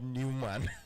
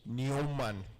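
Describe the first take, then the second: First: The name is said with the English vowel. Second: The name is said with the German vowel. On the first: The speaker calls it wrong. "not Newman" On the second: The speaker calls it right. "in Germany, I learned that it's pronounced Neumann"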